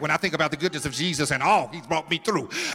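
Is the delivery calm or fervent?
calm. It is said in a calm, even manner. The hardship behind the words is not felt. The speaker calls it wrong. "I can't say it like"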